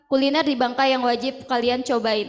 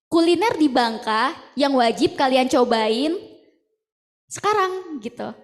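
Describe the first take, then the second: First: It is said with a plain, unsmiling voice. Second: It is said with a smiling, friendly voice.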